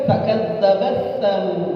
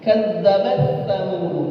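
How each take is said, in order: The two takes are said the same way.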